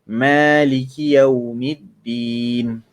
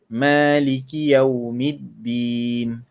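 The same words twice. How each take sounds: The two takes are said the same way.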